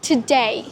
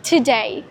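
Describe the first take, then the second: First: The stress is on the second syllable. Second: The stress is on the second syllable.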